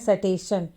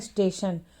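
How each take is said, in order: First: A short vowel separates the s and t. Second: The s runs straight into the t. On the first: The speaker calls it wrong. "कुछ बच्चे पढ़ते हैं सटेशन" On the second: The speaker calls it right. "लेकिन यहाँ इसे पढ़ना स्टेशन"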